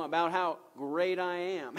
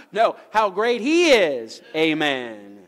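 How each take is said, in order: First: Said in the usual way. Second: Very loud, slow, raised proclamation; exultant preaching shout. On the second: Real, not acted. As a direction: shout the correction with drawn-out praise, landing on a loud amen. Corrects himself, exalting God to congregation.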